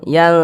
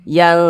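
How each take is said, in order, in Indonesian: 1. Bunyi n disamarkan dan didengungkan. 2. Bunyi n disamarkan dan didengungkan.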